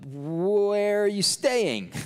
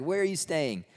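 First: High, drawn-out, hammed-up awkward question; awkward blurted question. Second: Higher-pitched, lightly mocking repeat; mock incredulous question. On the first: Flustered disciples asking Jesus, awkwardly drawn out. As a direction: stretch 'where' out high, like a flustered follower. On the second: Disciples replaying their silly question, mock incredulous. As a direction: toss the question back, high and quick.

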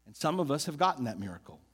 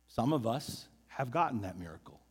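First: Said in the usual way. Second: Quiet echo. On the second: Shown as a demonstration.

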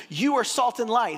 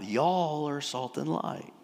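First: Said in the usual way. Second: Texan drawl. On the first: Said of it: "he's not talking about an individual". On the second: Shown as a demonstration. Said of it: "this is Jesus' Texan".

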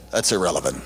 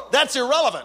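First: Very low, understated brush-off; deadpan dismissal. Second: High-pitched, insistent retelling; emphatic exclamation. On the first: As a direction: imitate a serious pastor dismissing the question. Quoting pastor's curt reply, low. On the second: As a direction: exclaim it to the crowd in disbelief. Repeats pastor's reply emphatically to audience. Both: Retold or imitated.

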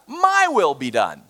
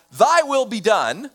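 First: "My" set firmly against "Thy", slow and falling; stress on My. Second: "Thy" pushed higher and held slow, against "My"; stress on Thy. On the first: Preacher contrasting two prayers to God, stress on "My". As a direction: weigh down the word "My". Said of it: "or we say to God". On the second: Preacher contrasting two prayers to God, stress on "Thy". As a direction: lean hard on the word "Thy". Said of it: "we either say to God". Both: Shown as a demonstration.

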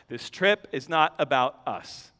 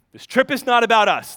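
First: Much lower and softer first take; quiet aside. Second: "not" pressed firmly, voice back up; stress on not. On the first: Preacher reminding the family, soft low voice. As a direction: murmur it as if to yourself. Repeated sermon point. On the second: Preacher repeating to the congregation, stress on "not". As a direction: land hard on the word "not". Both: Acted.

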